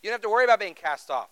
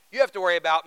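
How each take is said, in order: First: Said in the usual way. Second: "have" hit louder than the words around it; stress on have. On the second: Shown as a demonstration. Preacher to congregation, stressing "have". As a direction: lean on "have" to flip the meaning. Contrast with previous line.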